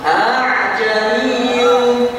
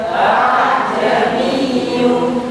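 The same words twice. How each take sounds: Both takes have the same delivery.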